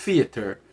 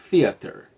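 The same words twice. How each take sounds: First: "theater" with th said as F or dropped, not between teeth; "theater" with the th sound swapped for an F-like sound; wrong th sound. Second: "theater" with tongue between teeth, air escaping on th; correct th sound. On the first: Teacher showing learners the common mistake, "theater" with F-like th. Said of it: "às vezes emula com um som de F". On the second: Teacher showing learners the ideal, "theater" with th between teeth. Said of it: "a língua no meio dos dentes". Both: Shown as a demonstration.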